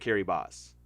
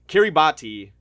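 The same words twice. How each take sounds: First: The last syllable begins with an s sound. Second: The last syllable begins with a t sound. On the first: The speaker calls it right. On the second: The speaker calls it wrong.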